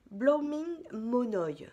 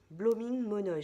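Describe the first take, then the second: First: "Blooming Monoï" spelled out slowly and louder, each syllable savoured; slow, deliberate "Blooming Monoï" like showing off the label; careful name reading. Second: Said in the usual way. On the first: Shown as a demonstration.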